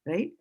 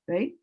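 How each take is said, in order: Both takes have the same delivery.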